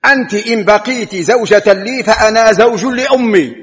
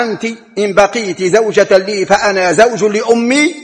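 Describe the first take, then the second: First: A touch of a husband's anger, raised and falling hard; mildly angry retort, pitched up; retelling a husband's furious answer; angry reply. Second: Said in the usual way. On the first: Retold or imitated. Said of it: "فأجابها زوجها في غضب". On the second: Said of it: "أما قول زوجها لها".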